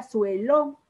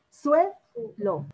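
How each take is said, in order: First: Said in the usual way. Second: Suelo split, SUE high, lo falling after a gap; teacher sounding out SUE... lo in Suelo; stress on SUE in Suelo. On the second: Shown as a demonstration. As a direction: lift and hold SUE in Suelo, pause, then lo. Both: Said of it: "¿Dónde lleva el acento?".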